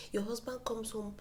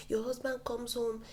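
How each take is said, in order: Both takes have the same delivery.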